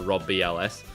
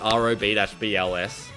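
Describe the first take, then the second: First: The first part is said as one word. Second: Each letter is spelled out separately. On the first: "rather than saying the Rob B L S" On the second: "I pronounce it individually"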